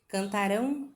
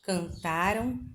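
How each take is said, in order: First: The stress is on the last syllable. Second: The stress is on the middle syllable. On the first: The action will happen in the future. "no futuro, elas são oxítonas" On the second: The action happened in the past. "No passado, as palavras paroxítonas"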